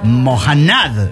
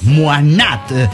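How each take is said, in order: First: A harsh J sound; the ending is stressed. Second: No harsh J sound; the n is stressed. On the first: The speaker calls it wrong. "con la J fuerte. Y la fuerza al final" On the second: The speaker calls it right. "Con cierta fuerza en la N"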